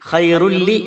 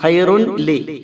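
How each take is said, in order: First: The n sound merges fully into the l. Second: The n sound is pronounced before the l. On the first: This is how it is actually read. The speaker calls it right. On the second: This is the written form, not how it is read. The speaker calls it wrong.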